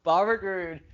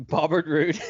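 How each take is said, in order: First: "Bobbert" said as BOB-bert with a high falling stress; mock name. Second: Laughs through the name Bobbert; laughing slip. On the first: Shown as a demonstration. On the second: Real, not acted. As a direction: giggle out Bobbert Roode.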